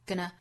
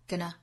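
The two takes are said the same way.

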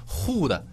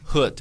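First: The vowel is long and tense. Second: The vowel is short and relaxed. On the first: The speaker calls it wrong. "你千万不要说who 的" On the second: The speaker calls it right. "这个音你就稍稍的撅上就可以"

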